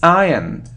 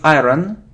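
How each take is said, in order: First: No r sound is heard in the word. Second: An r sound is heard in the word. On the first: The speaker calls it right. "So we don't hear r" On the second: The speaker calls it wrong. "It isn't iron"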